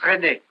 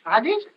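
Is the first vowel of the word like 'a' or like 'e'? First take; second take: e; a. First: The word is said like English 'ready'. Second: The word is said like French 'radis'. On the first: This is how the English speakers say it. "Les autres, ils, ils prononcent redé" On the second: The speaker avoids sounding like they know English. "Mais moi, comme je ne parle pas la langue"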